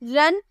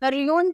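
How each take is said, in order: First: The vowel is a short uh sound. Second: The vowel is a long yoo sound. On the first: The speaker calls it right. "आप ऐसे बोलते हो ना।" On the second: The speaker calls it wrong. "रियून तो नहीं बोल रहे"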